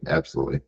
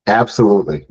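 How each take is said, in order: First: Whispered echo. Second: Loud, emphatic agreement. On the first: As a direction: repeat it under your breath. Same word repeated in a whisper. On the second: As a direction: say it with strong conviction. Emphatic agreement, then repeated whisper. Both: Real, not acted.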